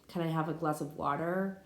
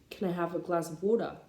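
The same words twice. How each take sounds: First: It is spoken in an American English accent. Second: It is spoken in an Australian English accent. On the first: "that be American" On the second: "That be Australian. That's me trying to sound Australian"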